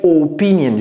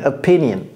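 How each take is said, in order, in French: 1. Le mot se prononce avec des sons français. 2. Le mot se prononce avec des sons anglais. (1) "j'ai pas dit opinion" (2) "j'ai dit opinion"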